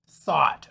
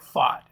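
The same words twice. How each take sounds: First: It begins with a th sound. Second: It begins with an f sound. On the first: The speaker calls it right. "He's like" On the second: The speaker calls it wrong. "I was like"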